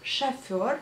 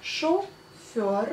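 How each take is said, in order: First: Chauffeur said as shafer, with a for the o; spoken chauffeur. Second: Chauffeur said with a clear o, as written, slowly. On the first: Teacher saying chauffeur aloud, shafer with an a sound. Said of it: "On dit chauffeur". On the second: Teacher spelling out the written chauffeur, slow and clear. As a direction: read chauffeur letter by letter, with the o. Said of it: "On écrit bien chauffeur". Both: Shown as a demonstration.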